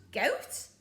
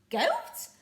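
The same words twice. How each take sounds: First: Puzzled. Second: Much higher, louder goat; outraged disbelief. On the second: Pirate captain appalled at goat stew, high incredulous. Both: Acted. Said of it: "said Handkerchief".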